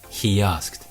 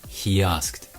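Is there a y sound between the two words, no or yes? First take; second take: yes; yes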